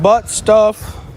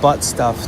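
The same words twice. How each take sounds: First: It is said loudly. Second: It is said at a normal volume.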